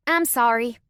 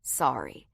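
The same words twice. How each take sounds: First: Louder, higher childish fake apology; insincere sorry. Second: Said in the usual way. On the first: A narrator's reading. Little girl apologizing to her brother, not sorry at all. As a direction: say sorry without meaning it. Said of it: "sounded like she was not sorry at all".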